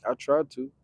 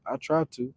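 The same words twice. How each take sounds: The two takes are said the same way.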